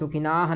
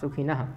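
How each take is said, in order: First: The vowel in 'na' is long. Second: The vowel in 'na' is short. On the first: The speaker calls it wrong. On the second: The speaker calls it right.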